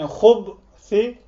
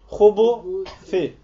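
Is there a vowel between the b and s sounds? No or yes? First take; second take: No; Yes. First: The b runs straight into the s, no vowel. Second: An u vowel sits between the b and s. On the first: "Birinde B'nin üzerinde ne var? Sukun var" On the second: "Diğer bir şeye göre ne var? Damla var"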